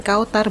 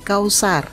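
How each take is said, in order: First: The middle consonant is a t sound. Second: The middle consonant is an s sound. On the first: The speaker calls it wrong. "bukan kautar bro" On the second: The speaker calls it right. "tapi kausar"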